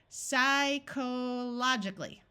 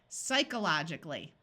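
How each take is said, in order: First: The o vowel is said as a long o. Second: The o vowel is reduced to a schwa. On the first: "Let's switch this long O to a short O" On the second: "Now let's try schwang it"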